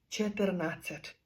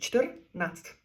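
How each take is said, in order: First: A vowel is inserted, giving three syllables. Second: The r forms a syllable, giving two syllables. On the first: The speaker calls it wrong. "Українець тут каже деколи три склади" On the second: The speaker calls it right. "А чех скаже два склади"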